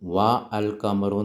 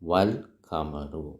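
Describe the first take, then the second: First: The vowel of 'al' is pronounced separately. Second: The vowel of 'al' is dropped and linked. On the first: The speaker calls it wrong. "നമ്മൾ വാ അൽ ഖമറു എന്ന് പറയൂലല്ലോ" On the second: The speaker calls it right. "അലിഫ് ഉച്ചരിക്കുന്നില്ല"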